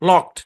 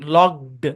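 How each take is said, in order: First: The ending is a voiceless t sound. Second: The ending is a voiced d sound. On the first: The speaker calls it right. "ঠিক আছে, এরকম" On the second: The speaker calls it wrong. "লকড এরকম হয়ে যাবে"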